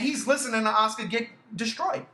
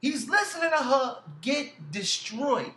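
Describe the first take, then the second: First: Said in the usual way. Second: Slow, higher, "get destroyed" spaced out; emphatic repeat. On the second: Real, not acted. Repeats it slowly in outrage.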